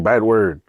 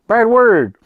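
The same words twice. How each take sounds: First: Said in the usual way. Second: Put-on high, loud kid voice; imitated little sister. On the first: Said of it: "She just kept saying". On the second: Retelling the sister's answer, high loud kid voice. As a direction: belt it out like a stubborn child. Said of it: "She's like".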